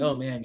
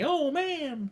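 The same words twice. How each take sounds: First: It is said flatly, with little animation. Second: It is said with lots of animation.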